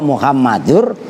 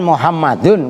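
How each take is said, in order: First: The final n merges into a following r. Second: The word ends with a clear n sound. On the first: The word is joined to the next word. "karena bertemu ro" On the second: This is the word's original form. "asalnya kan Muhammadun"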